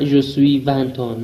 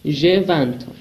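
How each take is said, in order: First: Je suis vingt ans drawn out slowly as the wrong version; wrong form, slowly. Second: Said in the usual way. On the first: Shown as a demonstration. Teacher shows learners the wrong way, slowly. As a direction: stretch out the mistake slowly so it's clear.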